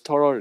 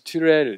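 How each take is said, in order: First: The first syllable sounds like 'ter'. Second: The first syllable sounds like 'tyu'. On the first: "제임스 터럴 이렇게도 발음하는데요" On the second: "제임스 튜렐 이렇게도 하고"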